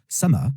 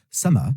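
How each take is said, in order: Both takes have the same delivery.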